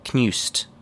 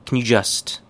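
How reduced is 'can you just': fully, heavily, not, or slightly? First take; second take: heavily; slightly. First: The words blend heavily, dropping the 'you'. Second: The words blend slightly, keeping a faint 'you'. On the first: "A little bit less chewing gum-like, but still very chewing gum" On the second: "More correct"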